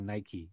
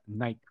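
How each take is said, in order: First: The word is said in an American way. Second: The word is said in a non-American way.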